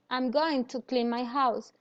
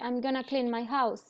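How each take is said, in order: First: Going to is said in full. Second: Going to is reduced to gonna. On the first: The speaker calls it wrong. "You don't say I'm going to clean my house" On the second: The speaker calls it right. "it sounds more natural if you say I'm gonna clean my house"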